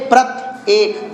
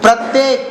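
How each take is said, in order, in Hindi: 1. 'prat' के बाद रुकावट के साथ शब्द टूटता है। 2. यह शब्द बिना रुके सहजता से बोला गया है।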